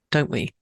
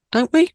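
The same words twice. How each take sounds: First: Said in the usual way. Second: Much higher, louder teasing rise; playful coaxing repeat. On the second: Real, not acted. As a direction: coax them into agreeing. Repeats question playfully to listeners.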